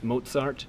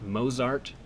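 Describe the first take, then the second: First: The name begins with a 'ts' sound. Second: The name begins with a 'z' sound. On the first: The speaker calls it right. "Z is pronounced approximately like T S, which is why it's Mozart" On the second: The speaker calls it wrong. "and not Mozart"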